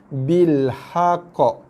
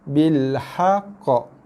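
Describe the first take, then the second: The two takes are said the same way.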